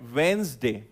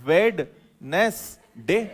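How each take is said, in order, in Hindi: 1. मध्य d ध्वनि पूरी तरह छोड़ दी जाती है। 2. मध्य d ध्वनि स्पष्ट रूप से उच्चारित होती है। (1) "मैं पहले बोलकर बताता हूं" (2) "क्यों बोलते हो वेडनेस डे?"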